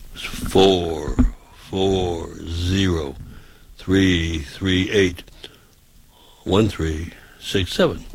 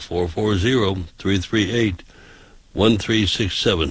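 First: The number is read at a slow pace. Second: The number is read at a fast pace.

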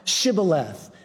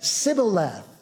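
First: It begins with an sh sound. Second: It begins with a plain s sound, Ephraimite dialect.

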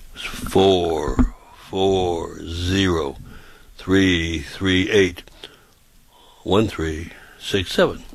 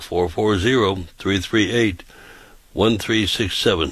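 First: The number is said slowly. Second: The number is said quickly.

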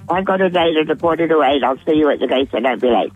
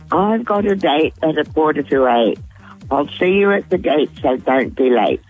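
First: It is said very quickly. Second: It is said at a normal speed.

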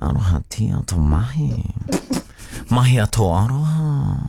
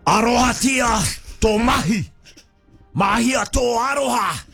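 First: It is said in a flirty tone. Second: It is said in an angry tone.

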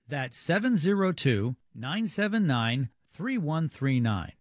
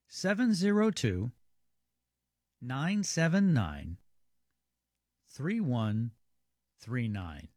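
First: The number is read at normal speed. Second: The number is read more slowly.

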